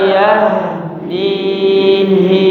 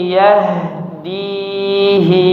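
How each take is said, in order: Both takes have the same delivery.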